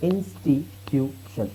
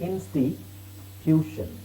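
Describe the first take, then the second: The two takes are said the same way.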